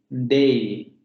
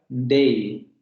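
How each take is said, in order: Both takes have the same delivery.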